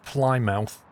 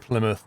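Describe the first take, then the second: First: The last syllable is a full 'mouth'. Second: The last syllable is a reduced 'muth'. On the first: The speaker calls it wrong. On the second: The speaker calls it right. "That's how you pronounce it"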